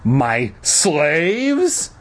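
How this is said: The stress is on the word slaves.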